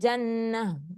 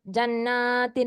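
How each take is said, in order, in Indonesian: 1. Kata itu berakhir dengan bunyi h yang lembut. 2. Kata itu berakhir dengan t yang jelas dan -in.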